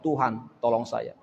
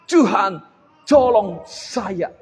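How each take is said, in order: First: It is said in a plain, ordinary way. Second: It is said in a showy, dramatic way.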